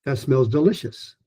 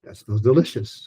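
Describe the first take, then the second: First: Delicious lifted and stretched in the middle; stress on delicious. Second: Delicious held long and falling; stress on delicious. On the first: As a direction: lean into the li of delicious. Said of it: "one A is". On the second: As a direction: stretch out delicious at the end. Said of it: "one rhythm group, one stressed syllable". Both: Shown as a demonstration.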